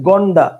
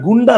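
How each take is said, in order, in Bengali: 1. প্রথম স্বরধ্বনিটি 'o' এর মতো শোনায়। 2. প্রথম স্বরধ্বনিটি 'u' এর মতো শোনায়। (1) "সেটার উচ্চারণ হচ্ছে গন্ডা" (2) "আসলে সেটা গুন্ডা না"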